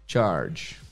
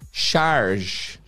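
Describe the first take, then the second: First: The word begins with a sharp 'tch' sound. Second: The word begins with a soft 'sh' sound. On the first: The speaker calls it right. "é tipo o ch de tchau" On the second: The speaker calls it wrong. "Não é charge"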